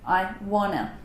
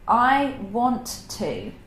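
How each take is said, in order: First: The two words are merged into one word. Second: Both words are said separately in full.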